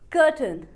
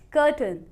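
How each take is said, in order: No difference in how they are said.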